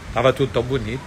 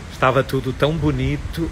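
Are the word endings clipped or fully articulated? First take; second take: clipped; fully articulated. First: The word endings are swallowed and clipped. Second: Every word is fully and clearly articulated. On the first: The listener is deprived of savoring the words. The speaker calls it wrong. "Eu não terminei nenhuma palavra" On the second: The listener can savor the words and pays more attention. The speaker calls it right. "Aí sim, mas o ouvido saboreia"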